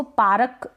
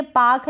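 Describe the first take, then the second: First: "पारक" में र पूरा, पा-रक; गलत मिसाल "पारक", दो हिस्सों में; पूरा र, गलत रूप. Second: "पाक" में लंबा आ, र गायब; सही मिसाल "पाक", एक हिस्से में; र के बिना. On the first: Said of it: "बोलेंगे तो गलत हो जाएगा". ("पारक" में र के बाद छोटा अ) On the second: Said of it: "इसको पारक बोलेंगे तो गलत". ("पाक" में र बोले बिना क पर जाएँ) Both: Shown as a demonstration.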